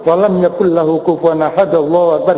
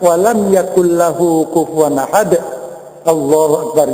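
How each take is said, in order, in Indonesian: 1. Frasa terakhir langsung menyambung tanpa jeda. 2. Ada jeda singkat sebelum frasa terakhir. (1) "jangan langsung" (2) "berhenti sejenak di sini"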